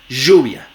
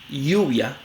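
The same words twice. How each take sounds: First: The ll is a voiced zh-like fricative. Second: The ll is a soft y-like approximant. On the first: "Como fricativa postal veolar sonora" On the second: "una aproximante palatal sonora"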